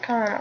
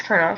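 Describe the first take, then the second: First: "Colonel" said as written, KOL-uh-nel; spelling pronunciation. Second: "Colonel" said as KER-nul; pronounced like kernel. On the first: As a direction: say "Colonel" with an l and no r, like COL-onel. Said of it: "Or is it Colonel?". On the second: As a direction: say "Colonel" with an r sound, two syllables. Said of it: "I think it's Colonel". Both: Shown as a demonstration.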